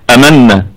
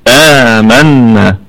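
First: آمنا with the آ clipped short; wrong short madd. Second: آمنا with the آ stretched long and slow; lengthened madd. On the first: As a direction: say آمنا hurrying the opening آ. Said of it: "ما نقولش". (آمنا بقصر الألف خطأً) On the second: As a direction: draw the آ of آمنا out slowly. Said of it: "نقول آ". (آمنا بمد الألف مدًا طويلًا) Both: Shown as a demonstration.

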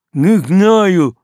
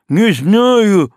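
First: Mumbled through a gag; gagged. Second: Mumbled through a gag; loud gagged protest. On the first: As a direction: shout through a mouth gag. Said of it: "мычит боцман". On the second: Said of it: "мычит". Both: A narrator's reading.

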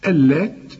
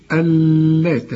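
First: اللات with a doubled lam and no nasal ghunna; correct Allat. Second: اللات with a nasal ghunna on the doubled lam; wrong Allat. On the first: Teacher giving the correct form, clean doubled lam. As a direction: stress the shaddah on the lam of اللات without nasalizing. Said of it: "اللام هنا مشددة لكن لا تغن". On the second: Teacher showing the student's mistake, nasal ghunna on اللات. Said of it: "ما تقولش". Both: Shown as a demonstration.

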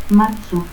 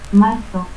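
First: Marzo as "matsu"; S for Z, no R, final u in Marzo; seseo. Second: Said in the usual way. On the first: Shown as a demonstration.

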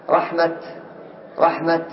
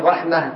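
First: "رحمة" ending in an audible t, rahmat; final ة as t. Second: "رحمة" ending in a breathed h, rahmah; final ة as h. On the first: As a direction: stop on "رحمة" with a released t. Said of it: "ولك أن تقف بالتاء". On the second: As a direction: stop on "رحمة" with h, no t. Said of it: "لك أن تقف بالهاء". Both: Shown as a demonstration.

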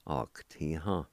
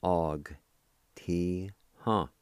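First: Said in the usual way. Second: "Og. Ti. Ha." as three drawn-out, separate syllables; syllable-by-syllable pronunciation. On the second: Shown as a demonstration. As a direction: sound out "Og. Ti. Ha." with gaps for a learner. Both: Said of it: "pronounce the G sound with the A like this".

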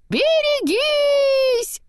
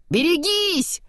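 First: Very high, loud, drawn-out warning cry; long shout. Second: High, raised warning cry; warning shout. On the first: Olaf's head flying past, very high drawn-out yell. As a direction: stretch the warning out as you fly. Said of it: "прокричала голова снеговичка". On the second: Kristoff warning Anna of the giant, high cry. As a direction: shout the warning, storybook style. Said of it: "крикнул Кристоф". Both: A narrator's reading.

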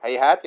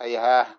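First: "هيهات" stopped on a clear final t; pause on t. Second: "هيهاه" ending in a breath of h, no t; pause on h. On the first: Teacher shows how some reciters stop, on the final t. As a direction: finish "هيهات" with an audible t, then halt. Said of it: "يقفون عليها هيهات". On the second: Teacher shows how others stop, on the final h. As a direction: finish "هيهاه" on h in place of t. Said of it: "بعضهم يقف هيهاه". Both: Shown as a demonstration.

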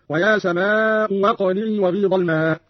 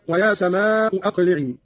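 First: "سماء أقلعي" as samaa'u waqli'ee; second hamza becomes waw. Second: Said in the usual way. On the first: Shown as a demonstration. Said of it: "بإبدال الهمزة الثانية واوا هكذا". ("أقلعي" بإبدال الهمزة واوا) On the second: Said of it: "قرأ قالون بإبدال الهمزة الثانية واوا".

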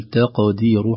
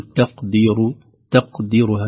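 First: تقدير with a bouncing echo on the qaf; qalqala on qaf. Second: تقدير with a flat, unbounced qaf; wrong reading of qaf. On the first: Teacher shows the correct echoing qaf. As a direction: let the qaf of تقدير ring out. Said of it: "هكذا، بل". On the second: Teacher models the wrong flat qaf in تقدير. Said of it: "لا نقول". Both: Shown as a demonstration.

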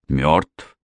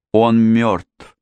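First: Mildly incredulous echo with rising tune; disbelieving question. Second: Higher cry of alarm; крик отчаяния. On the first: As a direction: ask back as if not believing your ears. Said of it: "переспросил ... словно не веря своим ушам". (недоверчиво переспросить) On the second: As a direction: cry out the bad news, pitch raised. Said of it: "крикнула она". (крикнуть в отчаянии) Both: A narrator's reading.

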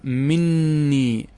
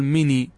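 First: "مني" with a long, held double n: min-nii; doubled nun. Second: "مني" with one short n: mi-nii; single light nun. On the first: Teacher showing nun merged into nun, "مني" with a held double n. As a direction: stretch out the geminated nun in "مني". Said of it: "إدغام مع تشديد". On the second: Teacher showing the nun removed, "مني" with one short n. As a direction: keep the n in "مني" single, no doubling. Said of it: "وإذا نزعت النون تأتي بالياء فقط". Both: Shown as a demonstration.

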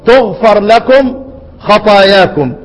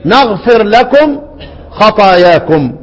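First: تغفر said with an opening ta sound, tughfir, slow and drawn out; reading with ta. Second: نغفر said with an opening nun sound, naghfir, slow and drawn out; reading with nun. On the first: Teacher recites Ibn Amir's reading to students, slow and measured. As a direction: recite تغفر slowly with a clear t at the start. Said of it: "يقرأ". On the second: Teacher recites the other readers' version to students, slow and measured. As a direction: recite نغفر slowly with a clear n at the start. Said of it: "يقرؤون". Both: Shown as a demonstration.

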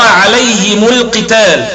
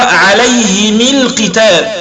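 First: Said in the usual way. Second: عليهم القتال with the mim of عليهم given a kasra, slow; Abu Amr reading. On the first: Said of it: "نحن نقرأ". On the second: Shown as a demonstration. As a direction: say عليهم القتال as alayhimi l-qital, slowly. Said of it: "الإمام أبي عمرو سيقرأ".

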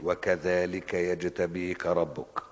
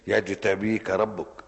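First: Drawn-out chanted recitation, very slow; measured Quranic chant. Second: Loud, very slow recited verse; slow, loud Quran chant; emphatic recitation. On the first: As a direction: intone the verse slowly like tajweed. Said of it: "ده أنت أكدت وقلت". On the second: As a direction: declaim the verse with force. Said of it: "وكذلك" إيه؟". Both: Shown as a demonstration.

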